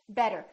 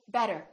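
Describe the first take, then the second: First: The middle consonant is a quick, light tap. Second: The same.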